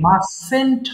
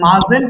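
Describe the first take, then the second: First: The middle consonant is a hissing s sound. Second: The middle consonant is a buzzing z sound. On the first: The speaker calls it right. "কিন্তু মাসেন্ট হবে। স" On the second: The speaker calls it wrong. "এর মাজেন্ট হবে না"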